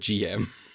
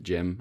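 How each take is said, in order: First: It is said as the two letters G M. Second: It is said as the single word Jim. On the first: This is the speaker's own preferred way. "I'm calling it the G M" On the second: Some fans insist this is the proper name. "You have to pronounce it Jim"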